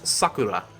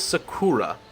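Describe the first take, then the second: First: The word is said with a Japanese pronunciation. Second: The word is said with an American pronunciation. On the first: The speaker calls it right. "It's sakura" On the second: The speaker calls it wrong. "That is the ignorant American way of pronouncing it"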